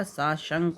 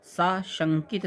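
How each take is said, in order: First: साशंक stopping on k; correct word form. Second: साशंकित ending in "-kit"; wrong word form. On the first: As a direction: end साशंक without "-it". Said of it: "साशंक होता है". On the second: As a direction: add it to the end of साशंकित. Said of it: "नहीं होता है भैया". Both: Shown as a demonstration.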